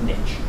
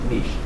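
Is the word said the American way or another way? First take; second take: American; other. First: The word is said the American way. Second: The word is said a non-American way. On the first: The speaker calls it wrong. "as Americans pronounce it" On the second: The speaker calls it right. "I like niche"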